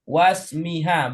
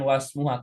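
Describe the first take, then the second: First: The vowel after 'wasm' is 'i'. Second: The vowel after 'wasm' is 'u'. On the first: The speaker calls it right. "cara bacanya wasmiha" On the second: The speaker calls it wrong. "bukan wasmuha"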